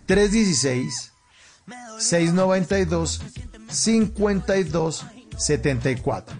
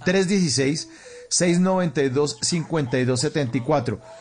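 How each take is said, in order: First: The number is said slowly. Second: The number is said at normal speed.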